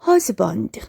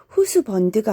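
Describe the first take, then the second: First: The first vowel is an open 'uh' sound. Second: The first vowel is a rounded 'oo' sound. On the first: The speaker calls it right. "자음과 자음 사이에 끼면 어 소리가 납니다" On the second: The speaker calls it wrong. "후스번드가 아니라"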